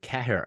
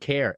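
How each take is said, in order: First: The name is said fully, as it is spelled. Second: The name is said in a shortened form. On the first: The speaker calls it wrong. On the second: The speaker calls it right.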